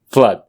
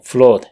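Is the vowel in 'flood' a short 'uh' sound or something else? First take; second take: short uh; something else. First: The vowel is a short 'uh' sound. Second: The vowel is not a short 'uh' sound. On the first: The speaker calls it right. "se lo pronuncia con una A corta" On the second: The speaker calls it wrong. "Si los pronunciaste como flood"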